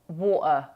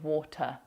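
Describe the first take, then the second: First: The T is replaced by a glottal stop. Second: The T is pronounced as a clear T.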